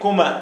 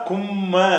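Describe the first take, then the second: First: The middle consonant is short. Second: The middle consonant is doubled. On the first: "அந்த சத்து இல்லாட்டி" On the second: "சத்து இருந்தால் கும்ம, அந்த அழுத்தம் கொடுத்து சொல்லணும்"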